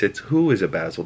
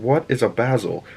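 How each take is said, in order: First: "who" stressed as a correction; correcting, with "who" picked out. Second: "what" stressed, falling after; puzzled question hitting "what". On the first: Shown as a demonstration. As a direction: lean on the word "who". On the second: Retold or imitated. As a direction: lean on the word "what". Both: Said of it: "And it's not what".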